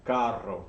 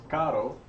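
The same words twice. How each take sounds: First: Carro with a full trilled double R; rolled R. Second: Caro with one quick tapped R, slow; single R. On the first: Teacher contrasting carro for kids with a rolled R. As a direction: roll the R in carro. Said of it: "C A R R O". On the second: Teacher showing kids caro with a single tapped R. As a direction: tap the R in caro just once. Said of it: "so this is one R". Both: Shown as a demonstration.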